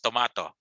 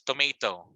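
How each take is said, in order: First: It is said with a British pronunciation. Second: It is said with an American pronunciation. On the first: "In British English or from U K, it's it is uh, pronounced as tomato" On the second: "in American English, it's tomato"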